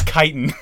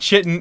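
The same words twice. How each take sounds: First: The first syllable rhymes with kite. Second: The first syllable does not rhyme with kite. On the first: The speaker calls it right. "I even put the word kite, K-I-T-E, dash I-N, so that I would know how to pronounce it" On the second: The speaker calls it wrong. "It's not chitin"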